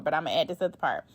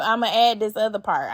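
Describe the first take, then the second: First: Softer and faster, half to herself; muttered aside. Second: Said in the usual way. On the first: Real, not acted. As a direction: slip it in quickly under your breath. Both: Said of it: "I said I wasn't gonna read no more".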